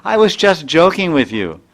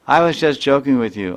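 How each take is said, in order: First: Teasing laugh. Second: Said in the usual way. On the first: Retold or imitated. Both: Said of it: "then Tulsi says".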